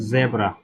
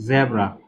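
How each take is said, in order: Both takes have the same delivery.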